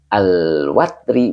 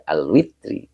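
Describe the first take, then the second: First: The vowel after the w is an a. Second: The vowel after the w is an i. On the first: "di fathil wawi" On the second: "wa kasriha"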